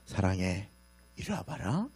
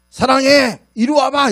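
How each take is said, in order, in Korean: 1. 다정한 말투로 말했어요. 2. 거친 말투로 말했어요. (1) "똑같은 말이에요 이뻐서 그러는데" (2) "이러면 올까요 절대 안 와요"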